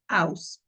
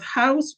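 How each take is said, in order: First: The initial h sound is dropped. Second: The initial h sound is pronounced.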